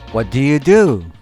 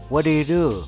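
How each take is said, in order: First: It is said at a normal, careful pace. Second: It is said very fast and run together.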